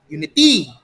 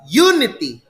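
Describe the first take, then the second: First: The stress is on the third syllable. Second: The stress is on the first syllable. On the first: The speaker calls it wrong. "If you place it on the third syllable" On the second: The speaker calls it right. "So the stress is on the first syllable"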